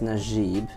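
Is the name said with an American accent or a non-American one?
non-American. The name is said without an American accent. The speaker calls it right. "my name is Najib"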